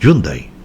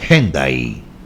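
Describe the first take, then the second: First: It is pronounced as heard in Colombia. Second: It is pronounced as heard on HBN. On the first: "Aquí en Colombia yo siempre oí Hyundai" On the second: "en H B N dicen Hyundai"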